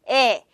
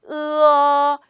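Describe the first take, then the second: First: A single steady e vowel is held. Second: The vowel glides from eu to uh. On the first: The speaker calls it wrong. "무조건 에, 에 이렇게 읽는 네, 나쁜 습관" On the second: The speaker calls it right. "으로 시작해서 입 모양이 어로 끝날 수 있게끔"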